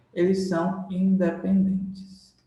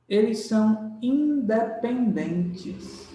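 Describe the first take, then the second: First: Said in the usual way. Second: "são" dwelt on, the whole phrase slowed right down; slow emphatic stress. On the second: Shown as a demonstration. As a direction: spell out "eles são independentes" slowly, leaning on "são". (ênfase lenta em "são") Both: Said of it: "Agora que vem o segredo".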